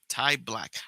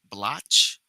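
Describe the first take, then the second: First: The name ends with a 'k' sound. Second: The name ends with a 'ch' sound. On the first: The speaker calls it right. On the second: The speaker calls it wrong. "I'm not calling him Blotch"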